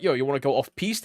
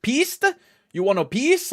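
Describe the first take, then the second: First: Said in the usual way. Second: High-pitched, puzzled questioning; mock language-barrier confusion, pitched high; confused ski instructor. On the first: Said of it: "the language barrier definitely is a weird thing". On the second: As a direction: play a baffled European instructor, voice jumping up. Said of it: "talking to a instructor".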